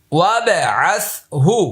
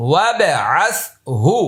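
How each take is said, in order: Both takes have the same delivery.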